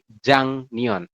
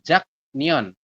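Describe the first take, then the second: First: An ng sound comes before the n. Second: A k sound comes before the n. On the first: The speaker calls it right. "tapi Jangneon" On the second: The speaker calls it wrong. "kita bacanya bukan Jaknyeon"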